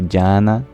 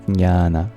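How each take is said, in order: First: The word starts without the N sound. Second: The word starts with both J and N. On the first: The speaker calls it wrong. "they don't pronounce the N and they say" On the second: The speaker calls it right. "the Sanskrit word for knowledge is"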